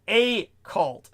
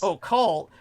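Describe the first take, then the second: First: Slow "a cult", the A said as the letter's name; two separate words. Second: "occult" as a single word, opening on "oh"; one joined word. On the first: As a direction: pull "a" and "cult" apart, unhurried. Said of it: "then a space". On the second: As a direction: start "occult" with a clear "oh". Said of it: "that gives them too much credit". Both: Shown as a demonstration.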